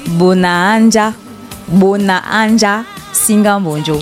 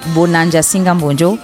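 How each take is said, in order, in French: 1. Les deux A sont prononcés séparément. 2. Les deux A se fondent en un seul. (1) "Le ministre a donné la prononciation. On dit" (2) "on ne dit pas Bonanja Singam Bonjo"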